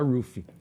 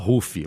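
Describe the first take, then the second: First: The name is said with an English pronunciation. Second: The name is said with a Portuguese pronunciation. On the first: "quando a gente fala em inglês fala Ruffy" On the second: "do que a gente fala Ruffy"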